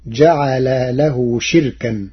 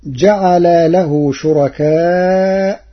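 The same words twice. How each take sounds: First: شركا as shirkan, kasra on shin, no hamza; شركا short with a silent ra; Warsh reading. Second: شركاء as shurakāʔ, long with final hamza, slow; شركاء with damma on shin and a long ending; Hafs reading. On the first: Teacher reciting Warsh's variant to the class. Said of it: "فتصير". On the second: Teacher quoting the standard reading, slowly. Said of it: "قرأ ورش كلمة شركاء". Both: Shown as a demonstration.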